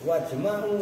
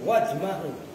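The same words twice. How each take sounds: First: The vowel after the m is a. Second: The vowel after the m is a.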